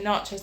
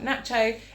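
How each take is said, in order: First: It is said with an American pronunciation. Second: It is said with a British pronunciation. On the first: This is how the speaker was raised to say it. "and nachos ... My mum is American and she's always said it like that" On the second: This is how others usually say it. "not nacho"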